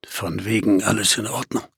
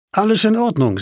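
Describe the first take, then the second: First: Low, quiet muttered aside; dry, sceptical retort. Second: Higher-pitched character line, falling at the end; lightly voiced Emily. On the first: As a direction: drop low and soft to contradict the reassurance. Narrator's dry retort to Emily's line. (trockener, leiser Widerspruch, tief gesprochen) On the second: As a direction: voice Emily's quick assurance in a raised pitch. Emily's line voiced within the narration. (Emilys Ausruf, höhere Stimme) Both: A narrator's reading.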